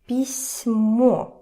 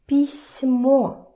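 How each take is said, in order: First: The s sound is soft, palatalized. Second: The same.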